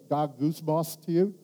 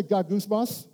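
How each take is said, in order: First: Ga goose moss said slowly with a rising end; Greek word gongysmos. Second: "Ga goose moss" with a rising prompt; Greek word gongysmos. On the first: Pastor teaching the congregation the Greek word: slow careful syllables. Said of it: "Can I make a". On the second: Pastor prompting the congregation to repeat: rising call. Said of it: "Can everybody say". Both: Shown as a demonstration.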